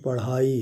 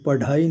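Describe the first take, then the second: First: The middle consonant is a quick aspirated flap. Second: The middle consonant is a full aspirated stop. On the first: The speaker calls it right. "पढ़ाई है" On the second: The speaker calls it wrong. "ये पढ़ाई नहीं है"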